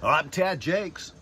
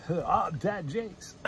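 First: Radio announcer voice. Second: Slow, smooth radio DJ delivery; radio announcer voice. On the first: Pretend. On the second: Retold or imitated. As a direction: draw it out like a radio host. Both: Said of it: "Sound like a radio guy".

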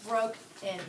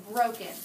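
First: "Broke in" split in two, accent on "Broke", "in" unaccented; syllables split, first accented. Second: Said in the usual way. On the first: Shown as a demonstration. Teacher showing pupils the unaccented syllable, "Broke in" said in two parts. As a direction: break it apart, stressing "Broke" and leaving "in" light. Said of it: "the accent is on the first syllable".

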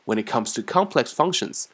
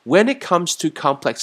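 First: When it comes to complex functions with emphasis on complex; emphatic teacher demo; emphatic phrase. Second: When it comes to complex functions said higher and louder; raised teacher demo; pitched up. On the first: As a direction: lean into complex. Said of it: "那么就会有一些强调感". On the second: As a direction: lift the phrase up. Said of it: "那么有点高啊". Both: Shown as a demonstration.

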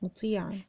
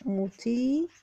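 First: مطيعًا as one word, "muti'an", softer; joined tanween. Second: مطيعًا split slowly as "mutii... 'an"; tanween sounded out. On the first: Teacher reading back مطيعًا, joined and soft. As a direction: say مطيعًا whole and softly, without a break. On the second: Teacher writing مطيعًا, sounding it out slowly. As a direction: stretch مطيعًا, pausing before the final "-an". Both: Shown as a demonstration. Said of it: "محتاج برضو ألف مساعدة".

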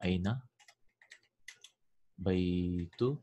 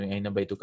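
First: أين بيتك with بيتك ending in ki, slowed; feminine ending ki. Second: أين بيتك ending on a short ka; بيتك said baituka, masculine ka. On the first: Teacher models the feminine form: بيتك with ki. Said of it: "I will say". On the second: Teacher gives the masculine form: بيتك ending in ka. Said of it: "So instead of". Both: Shown as a demonstration.

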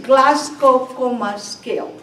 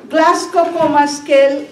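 First: "Glasgow Coma Scale" said slowly, each word set apart; name "Glasgow Coma Scale" slowly, like a new term on the board; slow deliberate naming of "Glasgow Coma Scale"; slow term introduction. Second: Teacher stressing "Glasgow Coma Scale"; emphatic repeat. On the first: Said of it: "Glasgow Coma Scale (term introduced slowly)". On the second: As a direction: hit "Glasgow Coma Scale" hard so the class remembers it. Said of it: "Glasgow Coma Scale (repeated with emphasis)". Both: Shown as a demonstration.

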